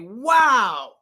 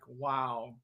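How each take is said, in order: First: It is said high and excited. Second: It is said low and slow. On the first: "with a high voice, it sounds exciting" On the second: "a lower, slower, like"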